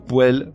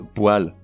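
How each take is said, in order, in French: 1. Le mot se prononce 'po-elle', avec un e ouvert. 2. Le mot se prononce 'pwal', avec un son a. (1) "Ou un ou une poêle" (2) "mais un ou une poêle"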